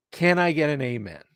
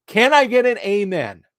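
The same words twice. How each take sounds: First: Said in the usual way. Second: Loud, high call for an amen; preacher call. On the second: Acted. Rallying YouTube viewers like a congregation, loud and high. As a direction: belt it out like a preacher to the crowd.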